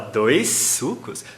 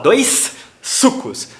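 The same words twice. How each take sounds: First: A single shared S sound links the words. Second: Two separate S sounds are pronounced between words. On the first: The speaker calls it right. "Você aproveita o S do dois" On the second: The speaker calls it wrong. "você não pronuncia dois S's, você não fala dois sucos"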